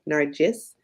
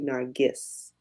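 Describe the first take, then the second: First: The middle consonant sounds like a J. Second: The middle consonant sounds like a hard G. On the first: "We pronounce it like it's a J" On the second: "or like a G"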